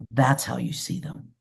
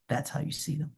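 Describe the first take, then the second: First: Said in the usual way. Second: Much softer repeat of "That's how you see them", almost breathed; soft echo. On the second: Real, not acted. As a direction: let the line fade out gently.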